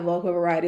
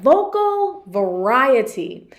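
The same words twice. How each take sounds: First: It is said flatly, with little pitch change. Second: It is said lively, with varied pitch. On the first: The speaker calls it wrong. "how it wasn't like vocal variety" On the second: The speaker calls it right. "It was like vocal variety"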